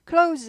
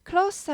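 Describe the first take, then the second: First: The word ends with a buzzing z sound. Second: The word ends with a hissing s sound. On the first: It means to shut. "동사예요" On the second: It means near or intimate. "형용사예요"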